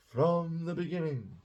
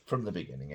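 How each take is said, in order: First: Higher, grand movie-scene delivery; lifted, theatrical quote of a film line. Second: Said in the usual way. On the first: Retold or imitated. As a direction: declaim it like a line from a period film. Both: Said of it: "Sorry, that was a, from a film".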